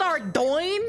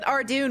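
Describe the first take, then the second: First: The last syllable sounds like 'doin'. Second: The last syllable sounds like 'doon'. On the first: This is how the game makers say it. "It's called Ardoin? That sounds stupid" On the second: This is how the speaker always said it. "I literally called it Ardoon my entire life"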